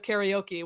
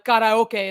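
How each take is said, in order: First: The word is said with English pronunciation. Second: The word is said with Japanese pronunciation. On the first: The speaker calls it wrong. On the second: The speaker calls it right. "certain pronunciations of things"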